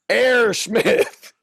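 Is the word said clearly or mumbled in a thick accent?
mumbled. The word is mumbled in a thick regional accent. This is the speaker's own old way of talking. The speaker calls it wrong. "I can't understand a word you're saying"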